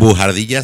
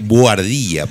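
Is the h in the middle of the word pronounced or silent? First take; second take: pronounced; silent. First: The middle h is voiced as a harsh throaty sound. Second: The middle h is silent, with no throaty sound. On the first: The speaker calls it wrong. "Bujardilla suena como una palabrota" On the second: The speaker calls it right. "la H es muda en español"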